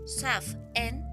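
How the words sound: It is pronounced the Scottish Gaelic way. It names the feast of All Hallows. "en gaélico escocés, pronunciado Samhain"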